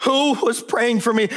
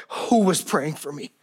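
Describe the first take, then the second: First: Higher, pressing, demanding an answer; cross-examining attorney. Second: Said in the usual way. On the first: Retold or imitated. Daughter interrogates her father, insistent and higher. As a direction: pin him down like a lawyer. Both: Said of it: "like that of a cross-examining attorney".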